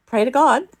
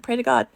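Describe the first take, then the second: First: High, loud panicked order; frantic raised-voice plea; retold urgent command. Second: Raised, insistent instruction; slightly less frantic urgent plea; retold command. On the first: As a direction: cry it out to your child in sudden danger. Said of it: "Like, I was calm". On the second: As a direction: order it firmly, voice up high. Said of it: "I was calm".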